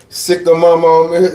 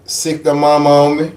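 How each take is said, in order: Both takes have the same delivery.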